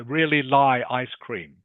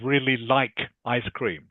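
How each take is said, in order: First: The word like is said without its final K. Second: The word like is said with its final K. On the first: The speaker calls it wrong. "or are you saying lie?" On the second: The speaker calls it right. "instead of really like ice cream"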